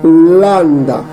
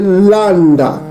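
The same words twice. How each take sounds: First: The word begins with an L sound. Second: The word begins with an L sound.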